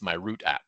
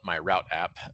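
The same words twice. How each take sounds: First: Route is said the way its Dutch developers say it. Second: Route is said in the speaker's own local way. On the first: This is how the app's makers say it. "as they pronounce it" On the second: This is how people where the speaker lives say it. "where we would call it"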